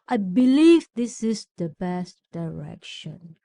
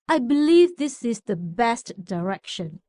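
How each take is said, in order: First: The voice trails off on the final words. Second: The voice stays strong through the final word. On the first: The speaker calls it wrong. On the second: The speaker calls it right.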